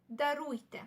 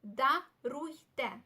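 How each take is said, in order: First: Said in the usual way. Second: "Даруйте" very slowly split into да-руй-те; "Даруйте" at less than half pace for learners; slow syllable-by-syllable demo. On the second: Shown as a demonstration. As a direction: sound out "Даруйте" with gaps between syllables. Teacher breaks new word into syllables.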